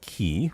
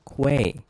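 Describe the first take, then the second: First: The name sounds like "key". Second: The name sounds like "kway". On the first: The speaker calls it wrong. "Not key" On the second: The speaker calls it right. "It's pronounced Quay"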